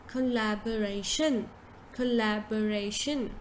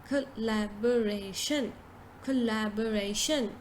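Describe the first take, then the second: No difference in how they are said.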